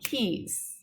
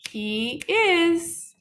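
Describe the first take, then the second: First: It is said as one short syllable. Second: It is said as two full syllables. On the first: "the contraction is shorter" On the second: "the long form"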